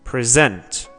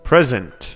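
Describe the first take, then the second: First: The stress is on the second syllable. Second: The stress is on the first syllable. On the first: It is used as a verb. "فعل ها استرسشون رو بخش بعدی" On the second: It is used as a noun. "اسم ها استرسشون رو بخش اوله"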